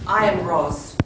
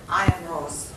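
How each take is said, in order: First: It is said very loudly. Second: It is said at normal volume.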